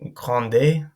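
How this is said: It is said with a Spanish pronunciation. The speaker calls it wrong. "it's not grande, this isn't Spanish"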